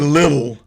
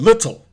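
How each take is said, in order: First: The word is clipped, with reduced middle sounds. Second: The word is said fully, with clear sounds. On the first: The speaker calls it wrong. "they don't say little" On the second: The speaker calls it right. "They pronounce it pretty clean"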